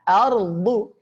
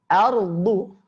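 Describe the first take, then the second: Both takes have the same delivery.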